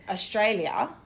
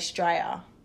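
First: The opening vowels are fully pronounced. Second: The opening vowels are dropped and swallowed. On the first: This is how non-Australians say it. The speaker calls it wrong. "we don't say Australia" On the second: This is how Australians say it. The speaker calls it right. "we say Australia ... It's like the A and the U is silent"

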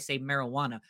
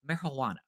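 First: The middle is said with a plain 'wah' sound. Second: The middle is said with a breathy 'hua' sound. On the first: The speaker calls it wrong. "every time I say marijuana, correct me" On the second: The speaker calls it right. "That's the pronunciation"

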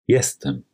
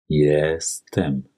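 First: It is spoken at normal conversational speed. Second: It is spoken slowly and carefully. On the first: "Einmal in normal gesprochener polnischer Geschwindigkeit" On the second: "anschließend zweimal langsam"

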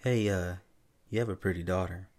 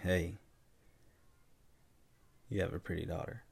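First: It is said in a friendly, harmless tone. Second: It is said in a creepy, leering tone. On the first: A harmless compliment. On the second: An unwelcome, creepy advance.

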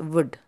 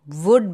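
First: The vowel is weak and reduced. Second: The vowel is full and clearly pronounced. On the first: "the oo sound is toned down there" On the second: "Would becomes would"

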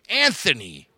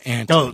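First: The middle consonant is a 'th' sound. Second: The middle consonant is a plain 't' sound. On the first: The speaker calls it wrong. "I always called him Anthony" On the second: The speaker calls it right. "you have to call him Anthony because he's the Tone"

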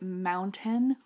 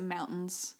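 First: The middle t is clearly pronounced. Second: The middle t is dropped, Idaho style.

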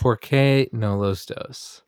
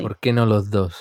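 First: It is said with an American gringo accent. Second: It is said with a native Spanish accent.

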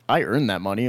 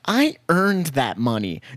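First: It is said in a plain, normal voice. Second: It is said in a whiny, complaining voice. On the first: The speaker means it personally. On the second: Someone else said it.

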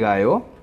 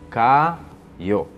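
First: The word begins with a G sound. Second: The word begins with a K sound. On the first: "Perceberam o som do G?" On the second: "no início ela tem o som de C ou K"

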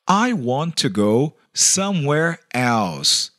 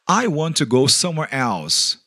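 First: It is said slowly. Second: It is said at normal speed.

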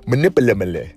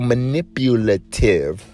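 First: The word is said quickly and comes out garbled. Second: The word is said slowly and carefully. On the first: The speaker calls it wrong. "if I try to say it fast" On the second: The speaker calls it right. "I gotta say that word slow"

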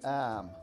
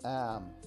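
Both takes have the same delivery.

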